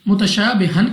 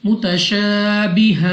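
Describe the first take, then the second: First: The word ends with an n sound. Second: The word ends with a long vowel. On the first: The reader continues without stopping. "मुतशाबिहन की बजाय" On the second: The reader stops at this word. "दो जबर को हमने अलिफ से बदल कर पढ़ना है"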